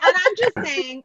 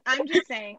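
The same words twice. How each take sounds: First: Higher, louder and slow; emphatic. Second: Said in the usual way. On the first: Real, not acted. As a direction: lean hard on the defence. Defending the joke.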